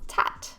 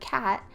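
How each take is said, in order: First: The word begins with a T sound. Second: The word begins with a K sound. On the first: The speaker calls it wrong. "They produce it as tat" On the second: The speaker calls it right. "They go to say the word cat"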